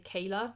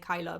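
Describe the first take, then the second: First: The name starts with a 'kay' sound. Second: The name starts with a 'kai' sound.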